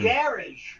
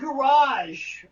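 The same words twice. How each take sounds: First: Garage is said in a British way. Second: Garage is said in a non-British way. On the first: "but in England they say" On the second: "I say garage"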